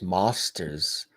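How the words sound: It is said in an English accent. "So in England, masters is mosters"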